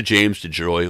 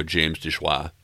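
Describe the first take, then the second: First: [name] ending in English "joy"; anglicized surname. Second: [name] Frenchified to "dish-WAH"; French pronunciation. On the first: Host guessing a musician's name, [name] rhyming with boy. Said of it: "gonna pronounce your name wrong". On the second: Host offering the French option, [name] said as "desh-wah". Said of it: "how French you wanna get". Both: Shown as a demonstration.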